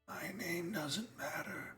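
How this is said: It is said in a put-on character voice.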